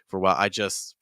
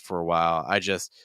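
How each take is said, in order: First: The phrase is said quickly and clipped. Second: The phrase is said slowly and drawn out. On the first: The speaker calls it wrong. "right now it feels a little fast" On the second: The speaker calls it right. "I would just drag it out longer"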